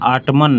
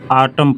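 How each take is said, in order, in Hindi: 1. शब्द n ध्वनि के साथ समाप्त होता है। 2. शब्द n ध्वनि के बिना समाप्त होता है। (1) "आटमन नहीं पढ़ते, यन साइलेंट होता है" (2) "आटम पढ़ते हैं"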